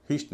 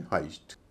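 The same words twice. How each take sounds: First: हिस्ट with a short "i"; wrong pronunciation. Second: हाइस्ट with an "eye" glide; correct pronunciation. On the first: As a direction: say हिस्ट like "hist", rhyming with list. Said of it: "हिस्ट नहीं है". (हिस्ट, छोटी "इ" के साथ) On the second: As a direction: say हाइस्ट as "hyst", falling at the end. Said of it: "हिस्ट नहीं है, हाइस्ट". (हाइस्ट, "आइ" की आवाज़ के साथ) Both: Shown as a demonstration.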